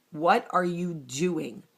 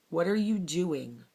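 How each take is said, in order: First: What are you doing drawn out slowly and firm; slow stressed self-reproach. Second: Said in the usual way. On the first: Retold or imitated. Catching herself mid-tantrum, slow firm self-reproach. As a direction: scold yourself slowly, leaning on "What".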